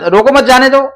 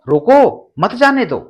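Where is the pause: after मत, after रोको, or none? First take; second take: none; after मत. First: It is said straight through without any pause. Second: There is a pause after the word मत. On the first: The meaning is unclear. "आप एक साथ बोलते हैं" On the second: The speaker wants the person let go. "तीसरे वाक्य में जाने के लिए निर्देश दिया जा रहा है"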